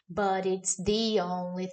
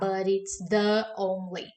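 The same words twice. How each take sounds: First: 'The' takes its special form before a vowel. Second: 'The' keeps its usual form before the vowel. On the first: The speaker calls it right. "fica muito mais fácil falar" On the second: The speaker calls it wrong. "do que falar"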